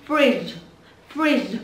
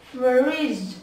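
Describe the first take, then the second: First: "Fridge" said quickly as one blended word; nói nhanh. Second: "Fridge" drawn out, every sound separate and clear; đọc chậm. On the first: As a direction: snap the sounds of "Fridge" together. (đọc "Fridge" nhanh, ghép liền các âm) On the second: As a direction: stretch "Fridge" slowly through to its ending. (đọc "Fridge" chậm, rõ từng âm) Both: Shown as a demonstration. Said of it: "Nói nhanh".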